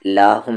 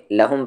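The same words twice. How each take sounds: First: لاہم with a stretched aa after the lam; wrong long lahum. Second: لہم with a short a, no long aa after the lam; short lahum. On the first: Teacher imitating the mistaken reading لاہم. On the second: Teacher showing pupils the correct لہم, not لاہم. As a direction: keep لہم tight, lam joined to ha. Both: Shown as a demonstration. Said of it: "لاہم نہیں".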